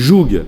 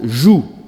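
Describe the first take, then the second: First: The word ends with a sounded g. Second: The word ends in a vowel, no final g. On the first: This is how it is said locally. "ici, on dit « jougue »" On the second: This is how it is said in France. "nous disons en France « joue »"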